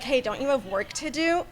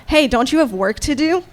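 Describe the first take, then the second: First: Faint and distant, said with the mic set down; away from the mic. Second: Said in the usual way. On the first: Shown as a demonstration. Quoting a player before picking the mic back up, distant off-mic. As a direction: speak off-mic, far from the microphone. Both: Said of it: "Oh, sorry, I put the mic down".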